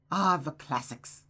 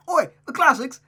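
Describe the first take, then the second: First: Said in the usual way. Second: Loud, high mock-British accent; Gavin Free impression. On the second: Reader trying a new accent for the girl, mock-British. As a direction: shout it in a hammed-up British accent. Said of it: "give her that type of accent".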